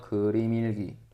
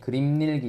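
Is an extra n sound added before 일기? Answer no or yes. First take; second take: no; yes. First: The m links straight into 일기, no extra n. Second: An extra n sound is added before 일기. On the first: The speaker calls it right. "그냥 연음시키죠" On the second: The speaker calls it wrong. "이렇게 발음 안 하고요"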